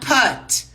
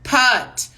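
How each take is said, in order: Both takes have the same delivery.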